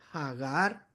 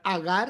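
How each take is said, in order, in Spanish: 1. El nombre empieza con una h aspirada, de aire hacia afuera. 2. El nombre empieza directamente con una vocal. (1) "la pronunciación más apegada es Hagar; Ha, de aliento hacia afuera" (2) "Otros pueden nomás pronunciar Agar, está bien"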